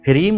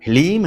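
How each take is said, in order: First: It is said with an R sound. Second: It is said with an L sound. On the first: The speaker calls it wrong. "ह्रीम नहीं" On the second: The speaker calls it right. "यहां पर ह्लीम है"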